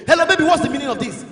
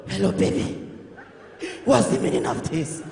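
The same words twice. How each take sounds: First: Mock angry raised voice on the phone; provoked boyfriend. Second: Hoarse, voiceless croak, low; voice locked up. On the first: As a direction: demand an explanation, loudly. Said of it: "they provoke". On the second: Acted. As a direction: squeeze it out with no voice left. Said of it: "voice don't lock".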